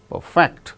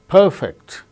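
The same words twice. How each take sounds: First: The stress is on the second syllable. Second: The stress is on the first syllable. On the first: It is used as a verb. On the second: It is used as an adjective.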